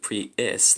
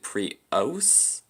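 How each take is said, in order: First: The name is said like the car name. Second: The name is said unlike the car name. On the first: "like the car" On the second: "Like its own pronunciation"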